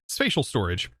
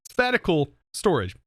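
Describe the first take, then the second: First: The first word is said with two syllables. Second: The first word is said with three syllables. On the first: The speaker calls it right. "It is definitely spatial storage" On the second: The speaker calls it wrong. "I've completely said that wrong this entire time"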